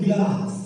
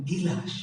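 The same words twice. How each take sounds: First: গ্লাস said slowly with a clean gl cluster; slow, tidy গ্লাস; গ্লাস spoken carefully and correctly; careful standard. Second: গিলাস with an added i, gi-las, softly; গিলাস the village way; mother's pronunciation. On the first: Shown as a demonstration. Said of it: "শব্দটি গ্লাস". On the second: Retold or imitated. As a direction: imitate mother's গিলাস, splitting the cluster. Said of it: "তিনি গ্লাস বলেন না, কি বলেন".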